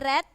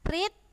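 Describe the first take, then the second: First: The vowel is short, sounding like 'red'. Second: The vowel is long, sounding like 'reed'. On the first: It is the past-tense form. "tulisannya sama tapi berbeda dengan cara bacanya" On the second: It is the present-tense form. "tulisannya sama tapi berbeda dengan cara bacanya"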